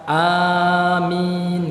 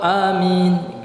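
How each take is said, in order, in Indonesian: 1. Vokal pertama dibaca panjang. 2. Vokal pertama dibaca pendek. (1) "boleh dipanjangkan a-nya" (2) "dengan diqasar ya, dipendek"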